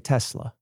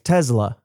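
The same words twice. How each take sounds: First: The middle consonant is a soft S. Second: The middle consonant sounds like a Z. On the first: This is how the speaker personally says it. "With a nice soft S" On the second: This is how a speaker from Canada says it. "her S's tend to sound a little more Z-like"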